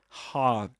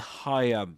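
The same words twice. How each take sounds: First: The middle vowel of the triphthong is dropped. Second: The middle vowel of the triphthong is kept. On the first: "the I in the middle, gets dropped, and you may hear something like higher" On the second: "rather than higher"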